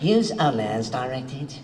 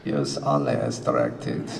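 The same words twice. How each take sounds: First: It is said in a British accent. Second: It is said in a German accent.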